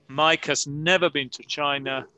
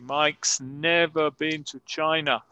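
First: Mike has is said as two full words. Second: Mike has is shortened to one word, Mike's.

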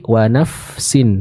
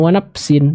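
First: The f sound flows clearly with audible air. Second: The f sound is clipped without flowing air. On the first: The speaker calls it right. "Udara dan suara dari huruf fa yang sukun tersebut uh, terdengar mengalir dengan jelas" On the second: The speaker calls it wrong. "bukan wa nafsin"

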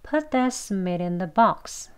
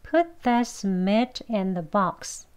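First: The sentence is spoken fast and relaxed. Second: The sentence is spoken slowly and carefully. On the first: "대화 속에서 빨리 발음하거나 편하게, 부드럽게 발음하게 되면요" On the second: "천천히 같이 해볼게요"

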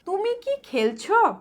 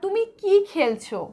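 First: The word কি is said lightly, without stress. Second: The word কি is said with clear stress. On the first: It asks whether you are playing, answered yes or no. "দুটির টোনের কিন্তু পার্থক্য আছে" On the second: It asks what you are playing. "দুটির টোনের কিন্তু পার্থক্য আছে"

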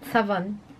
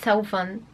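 First: The word is pronounced the English way. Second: The word is pronounced in a non-English way. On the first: The speaker calls it right. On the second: The speaker calls it wrong.

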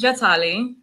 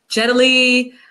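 First: The name is said with its native pronunciation. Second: The name is said with a New York mispronunciation. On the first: The speaker calls it right. "You're saying it properly" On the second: The speaker calls it wrong. "New Yorkers always butcher it. So they're always like"

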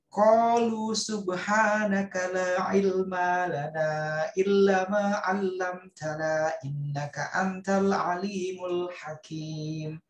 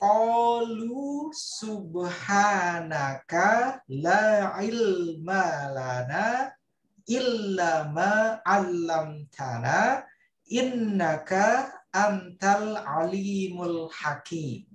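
First: It is said at normal speed. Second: It is said very slowly.

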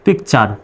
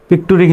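First: The ending is said as 'char'. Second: The ending is said as 'turi'. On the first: The speaker calls it right. "সুতরাং চার উচ্চারণ হবে" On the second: The speaker calls it wrong. "পিকটুরি কিন্তু হবে না"

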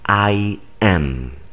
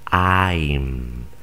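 First: It is said as two separate words. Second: It is said as one contracted syllable. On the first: "por separado" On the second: "cuando se contraen, ya solamente se pronuncia I'm"

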